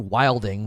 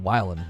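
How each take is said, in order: First: The word ends with a full 'ing' sound. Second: The word ends with a clipped 'in' sound. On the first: This is not how people there said it. "They didn't say wilding" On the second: This is how people there said it. "They said wildin'"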